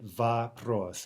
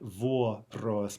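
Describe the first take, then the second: First: The first vowel is reduced to an 'ah' sound. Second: The first vowel is a full 'oh' sound. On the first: The speaker calls it right. "but va-pros" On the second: The speaker calls it wrong. "not vo-pros"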